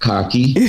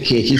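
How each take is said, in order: First: The first vowel sounds like in 'car'. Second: The first vowel sounds like in 'cake'. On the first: This is how some other people say it. "Some people pronounce it khaki" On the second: This is how the speaker's own community says it. "we pronounce it cakey"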